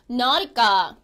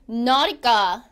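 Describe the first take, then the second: The two takes are said the same way.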